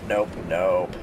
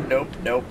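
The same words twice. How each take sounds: First: "nope, nope" dropped much lower; deep nope. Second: Said in the usual way. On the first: Shown as a demonstration. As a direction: growl "nope, nope" way down low.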